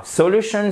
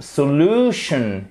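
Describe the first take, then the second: First: "solution" sans appui sur la deuxième syllabe; déplace l'accent de "solution" hors du LU; accent tonique fautif. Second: "solution" avec la deuxième syllabe étirée et forte; accent tonique juste. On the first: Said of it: "et ça ne sera pas". ("solution" mal accentué, LU bref) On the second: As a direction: appuie longuement sur le LU de "solution". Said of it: "sur la deuxième syllabe". ("solution" à l'anglaise, so-LU-tion) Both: Shown as a demonstration.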